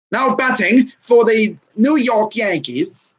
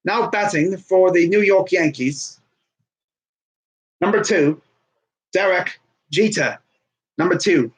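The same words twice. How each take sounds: First: Drawn-out PA call to the crowd; stadium announcer. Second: Put-on lightly done British accent as a ballpark PA call; a hint of British stadium announcer. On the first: Retold or imitated. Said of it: "P A announcer would say". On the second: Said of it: "in the British accent?".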